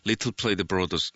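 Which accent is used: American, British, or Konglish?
British. It is said in a British English accent. The speaker calls it wrong. "영국 스타일로"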